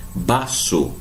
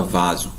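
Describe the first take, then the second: First: "baço" slow, with B and hissed S; Spanish V as B. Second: "vaso" with a V and a Z sound; Portuguese V. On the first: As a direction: say "baço" with B in place of V. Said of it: "sempre igual ao nosso B". ("baço" com som de B, à espanhola) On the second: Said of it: "a gente não fala vaso". ("vaso" com V e som de Z, em português) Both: Shown as a demonstration.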